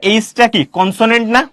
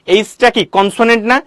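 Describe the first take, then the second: No difference in how they are said.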